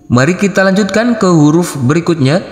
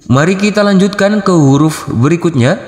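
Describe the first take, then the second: Both takes have the same delivery.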